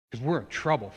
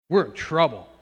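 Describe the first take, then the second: First: Said in the usual way. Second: Louder, pressing warning to the congregation. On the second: Acted. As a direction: sound the alarm on trouble.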